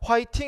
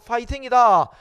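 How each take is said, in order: First: The word begins with an h sound. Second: The word begins with a p sound. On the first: The speaker calls it wrong. "히읗을 쓰지 않고" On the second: The speaker calls it right. "피읍을 쓴다"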